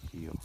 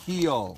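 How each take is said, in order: First: Gentle, low-key heel command; a soft correction, barely raised; quiet heel cue to the dog. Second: Loud, high heel command; firm loud correction to the drifting dog; sharp correction. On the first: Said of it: "See how soft that correction was?". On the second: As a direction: snap the dog back into heel. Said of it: "my tone goes up". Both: Real, not acted.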